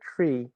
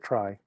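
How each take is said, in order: First: The vowel sounds like 'ee' in 'see'. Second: The vowel sounds like 'eye' in 'my'. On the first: "did I pronounce that correctly" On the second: "or is it try?"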